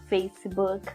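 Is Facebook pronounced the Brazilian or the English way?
English. It is pronounced with an English accent. "forçar e falar Facebook"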